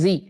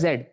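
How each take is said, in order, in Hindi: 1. अक्षर का नाम लंबी ee ध्वनि पर खत्म होता है। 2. अक्षर का नाम d ध्वनि पर खत्म होता है। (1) "आजकल हो गया जी" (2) "वैसे पहले होता था जेड"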